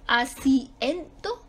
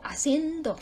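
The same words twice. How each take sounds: First: Asiento slowly as a-ci-en-do, I and E in separate syllables; questioning a-ci-EN-do with hiatus; vowels split apart. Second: Haciendo as a-cien-do, IE in one syllable; joined-up diphthong in haciendo; vowels kept together. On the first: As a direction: break asiento between the I and the E. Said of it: "Porque la I y la E se dividen o no". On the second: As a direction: glide the I into the E of haciendo. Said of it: "O siguen juntas". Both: Shown as a demonstration.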